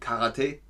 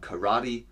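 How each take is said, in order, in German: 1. Das ist japanische Aussprache. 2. Das ist amerikanische Aussprache. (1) "auf Japanisch heißt es dann Karate" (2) "in den USA, glaube ich, sagt man Karate"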